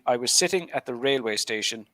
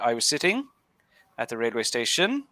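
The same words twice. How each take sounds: First: The key word is slower with more emphasis. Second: There is a pause and the pitch rises. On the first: The speaker calls it right. "a kind of a little bit slower and and more emphasis" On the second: The speaker calls it wrong. "a pause at the end and then the intonation going up"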